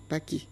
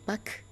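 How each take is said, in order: First: The word ends with an added 'ee' vowel. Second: The word ends on a consonant, no final vowel. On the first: This is how Baoulé speakers pronounce the word. "changent le E muet en I" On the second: This is the standard French pronunciation. "Tous les mots français se terminant par E muet"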